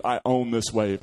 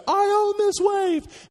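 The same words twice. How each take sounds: First: Said in the usual way. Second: High, loud and slow, claiming the wave; drawn-out victorious cry of ownership; triumphant shout. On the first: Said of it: "and I decide". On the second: Retold or imitated. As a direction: yell it out like you've conquered the ocean. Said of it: "I think I actually said".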